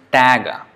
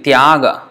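First: It begins with 'ta' and ends in 'g'. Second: It begins with 'tya' and ends in a vowel. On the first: This is the Bengali pronunciation. "becomes Tag" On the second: This is the Sanskrit pronunciation. "Tyaga becomes Tag"

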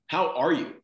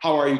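First: It is asked slowly and sincerely. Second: It is asked quickly and offhandedly.

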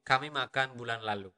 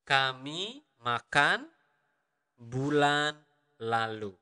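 First: The sentence is spoken at natural conversational speed. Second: The sentence is spoken slowly and carefully.

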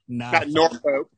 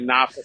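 First: It is said with a non-local pronunciation. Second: It is said with the local Virginia pronunciation. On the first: The speaker calls it wrong. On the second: The speaker calls it right. "as they say in Virginia"

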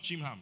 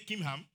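First: The name begins with a ch sound. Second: The name begins with a hard k sound. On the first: The speaker calls it wrong. "not Chimham" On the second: The speaker calls it right. "say Kimham, The H is silent"

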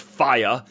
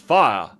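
First: The word is said with two syllables. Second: The word is said with one syllable. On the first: It sounds uncouth. The speaker calls it wrong. "it's not fire" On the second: It sounds posh. The speaker calls it right. "posh people say fire with one syllable"

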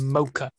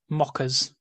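First: The word sounds like 'mocha'. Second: The word sounds like 'mockers'. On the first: This is how the speaker prefers to say it. The speaker calls it right. "rather than" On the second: This is how people locally say it. The speaker calls it wrong. "over here they get called mockers, which kind of bothers me"

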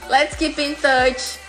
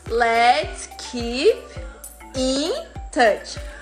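First: Keep and in are linked into one sound. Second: Keep and in are said as separate words. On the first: The speaker calls it right. "o som fica pin" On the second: The speaker calls it wrong. "você não vai falar e você não vai ouvir"

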